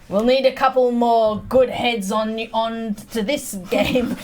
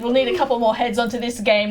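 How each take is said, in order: First: It is said hesitantly, stumbling over words. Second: It is said smoothly and with confidence.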